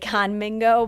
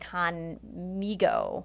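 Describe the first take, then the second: First: The middle syllable has an n before the g. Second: The middle syllable has no n before the g. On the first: The speaker calls it wrong. "I always want to say Conmingo, but it's not" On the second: The speaker calls it right. "It's Conmigo. Um, is like a mi- like amigo"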